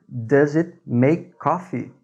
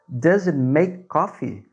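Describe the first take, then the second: The two takes are said the same way.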